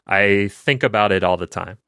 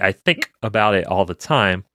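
First: The K in think is weak and unpopped. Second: The K in think pops with a glottal stop. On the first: "I'll try to make it a normal way. ... You don't hear a particularly strong K there" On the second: "you hear that special pop"

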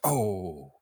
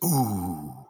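First: The vowel is an open 'oh' sound. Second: The vowel is a rounded 'ooh' sound. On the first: This is how English fans react to a miss. "Whereas when we miss a shot" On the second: This is how Scandinavian fans react to a miss. "when you go to Scandinavia and a shot goes wide"

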